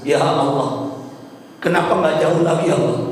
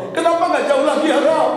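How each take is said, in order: First: Understated, imitated dying lament; retold tearful plea. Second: High, wailing imitation of the husband; retold tearful plea. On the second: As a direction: cry it to God, pitched right up. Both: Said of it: "suamiku berkata sambil melihat ke atas menangis".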